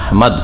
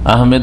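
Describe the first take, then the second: First: The second syllable has a different, non-'e' vowel. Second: The second syllable has an 'e' vowel. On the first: The speaker calls it right. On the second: The speaker calls it wrong. "ইংরেজিতে লিখে কি আহমেদ লিখে, M E D, যার ফলে আহমেদ বলে, ভুল। আহমেদ নয়"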